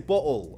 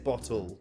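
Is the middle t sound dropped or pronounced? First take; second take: dropped; pronounced. First: The middle t sound is dropped. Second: The middle t sound is clearly pronounced. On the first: The speaker is not posh. "I don't pronounce my T's. I say bottle" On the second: The speaker sounds posh. "I don't say bottle"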